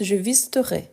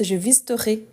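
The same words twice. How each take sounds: First: "visiterai" ending in an open "eh"; final è ouvert. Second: "visiterai" ending in a closed "ay"; accent régional. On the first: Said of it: "mon accent, je prononce". (« visiterai » avec un è ouvert final) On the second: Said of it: "Il y a des gens qui prononcent". (« visiterai » avec un é fermé final) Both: Shown as a demonstration.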